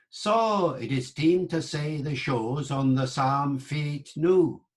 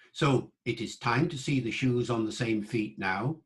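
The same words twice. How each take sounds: First: "time" as "team", "feet" as "fate", "now" as "new"; Middle English vowels. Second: Said in the usual way. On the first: Shown as a demonstration. Teacher showing the vowel shift on the mnemonic. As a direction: say the sentence with the old long vowels. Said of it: "so was saw".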